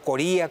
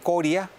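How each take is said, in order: First: The stress is on the second syllable. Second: The stress is on the first syllable.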